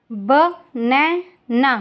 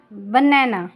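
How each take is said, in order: First: Very slow, stretched बनैना; slow careful model word. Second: Said in the usual way. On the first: Shown as a demonstration. Teacher modelling बनैना slowly for listening pupils. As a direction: draw out बनैना for the class. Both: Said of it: "listen to your teacher say the following words".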